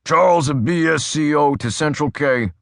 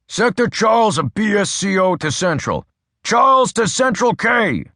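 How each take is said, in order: First: Crisp cop radio call, a bit higher; brisk radio call. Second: Building radio shout; shouted radio call. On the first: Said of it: "spoke briskly". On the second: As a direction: yell the call sign, straining to get through. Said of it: "Adams shouted". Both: A narrator's reading.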